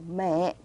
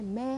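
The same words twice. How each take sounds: First: The pitch drops sharply and low. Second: The pitch does not drop sharply. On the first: The speaker calls it right. "음을 뚝 떨어뜨려주는 그런 성조예요" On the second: The speaker calls it wrong. "매 하는 게 아니라"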